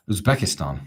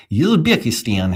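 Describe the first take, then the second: First: Said in the usual way. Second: Louder, slow, higher Uzbek accent attempt. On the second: Shown as a demonstration. Streamer trying an accent for viewers, attempted Uzbek accent. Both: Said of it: "I can't do the accent".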